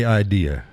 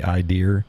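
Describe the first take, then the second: First: "idea" ending in an open "uh", no R; standard pronunciation. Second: "idea" ending in an R, like "idear"; added R. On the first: Asking viewers how they say it, "idea" without R. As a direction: say "idea" without any final R. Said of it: "how do you say idea". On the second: Explaining a New Hampshire thing, "idea" with added R. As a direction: put an R on the end of "idea". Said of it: "adding the R". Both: Shown as a demonstration.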